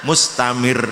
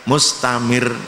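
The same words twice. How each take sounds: The two takes are said the same way.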